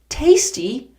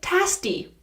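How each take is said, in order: First: The first vowel sounds like the vowel in 'day'. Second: The first vowel does not sound like 'day'. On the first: The speaker calls it right. "the pronunciation is tay" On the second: The speaker calls it wrong. "Some of my students say tasty"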